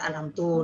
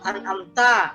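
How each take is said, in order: First: The word ends with a 'tu' sound. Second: The word ends with a 'ta' sound. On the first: The speaker calls it wrong. "dibaca anamtu. Nah, itu juga salah besar" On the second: The speaker calls it right. "misalkan uh, an-amta ya"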